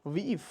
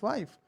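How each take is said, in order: First: The vowel is a long 'ee' sound. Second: The vowel is an 'eye' sound. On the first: This is the older pronunciation. "before the great wall shift it was weef" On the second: This is today's pronunciation. "In modern English we have, it is wife"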